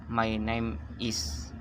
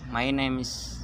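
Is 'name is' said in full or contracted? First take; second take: full; contracted. First: The words name and is are said separately. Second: The words name and is are joined together. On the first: "yang tadinya my name is" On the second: "digabung jadi my name's"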